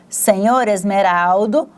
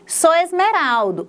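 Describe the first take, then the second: First: The title is said with both syllables. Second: The title is shortened to one syllable. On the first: The speech is formal. "para o formal, que vai utilizar as palavras em sua forma completa" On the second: The speech is informal. "Sou é a forma reduzida de senhor"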